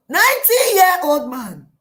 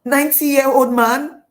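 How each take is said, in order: First: Loud, high wail falling away; hammed-up dismay with a falling end; appalled outcry. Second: Loud, high, rising disbelief; acted shock, ending on a rise; incredulous question. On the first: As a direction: cry it out in horror, pitch dropping at the end. Acting Hagar's dismay at match. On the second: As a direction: question it loudly as if appalled. Acting Hagar's disbelief at match.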